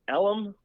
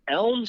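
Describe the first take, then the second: First: The word is said as two syllables. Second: The word is said as one syllable. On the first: This is how the locals say it. "the way these people pronounce it" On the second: This is the official street name.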